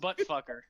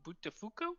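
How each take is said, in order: First: The name is said plainly as butt and fucker. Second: The name is said as three open syllables, Butafuko. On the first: The speaker calls it right. "No, it's pronounced Buttfucker" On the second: The speaker calls it wrong. "so how do you say your last name?"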